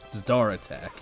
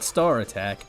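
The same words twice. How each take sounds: First: The name is said with a 'z' sound. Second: The name is said without a 'z' sound. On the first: The speaker calls it right. "with a Z" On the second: The speaker calls it wrong. "Not Star Attack"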